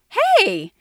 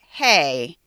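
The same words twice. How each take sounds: First: It sounds warm and happy. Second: It sounds stern and disapproving. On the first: The speaker is glad to see someone again. "if I just saw you and I hadn't seen you in a long time" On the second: The speaker objects to what someone is doing. "if you were doing something I didn't like"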